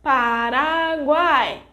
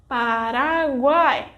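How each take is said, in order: First: Paraguay with the final A held long and slow; lengthened A. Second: Paraguay with the A drawn out slowly; stress on A. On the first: Teacher emphasizing the long vowel for learners, slow stress. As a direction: stretch the A in Paraguay even longer. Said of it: "when we want to emphasize the pronunciation, the vogal A is pronounced for longer". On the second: Teacher showing learners which vowel is strongest, slow stress. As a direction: lean on the A in Paraguay. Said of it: "the vogal A will draw more attention, like this". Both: Shown as a demonstration.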